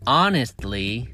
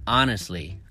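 First: The T sound is clearly pronounced. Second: The T sound is silent. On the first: The speaker calls it wrong. "So we don't say honestly" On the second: The speaker calls it right. "we say honestly, The T is silent"

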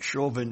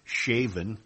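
First: The name is said in its usual way. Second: The name is said like the word 'shaven'. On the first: The speaker calls it right. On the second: The speaker calls it wrong.

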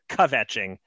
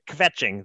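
First: A small vowel separates the K and V. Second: The K and V are joined with no vowel. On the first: The speaker calls it wrong. "You put like a little extra vowel sound in there" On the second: The speaker calls it right. "The K and V go right together"

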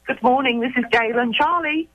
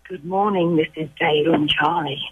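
First: It is said in a plain, normal voice. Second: It is said in a sultry bedroom voice.

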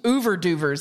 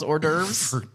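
First: The word begins with an 'oo-ver' sound. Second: The word begins with an 'or' sound. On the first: The speaker calls it wrong. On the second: The speaker calls it right.

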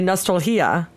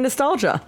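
First: The g is said like an h sound. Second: The g is said as a hard g. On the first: "if you were to pronounce it phonetically" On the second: "an English speaking American would say nostalgia"

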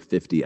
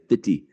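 First: The t in the middle is a crisp t. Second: The t in the middle is a soft d. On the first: The speaker calls it wrong. "I don't say 50" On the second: The speaker calls it right. "I say 50"

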